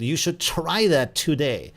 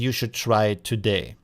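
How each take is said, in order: First: It is said with rhythm and stressed words. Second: It is said flat, without varied intonation.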